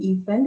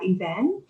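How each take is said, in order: First: It is said with an Indonesian pronunciation. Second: It is said with an English pronunciation. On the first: "dilafalkan jadi event dalam bahasa Indonesia" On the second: "misalnya kata event"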